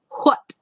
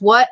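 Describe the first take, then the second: First: The W is breathy, with an audible H. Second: The W is plain, without a breathy H.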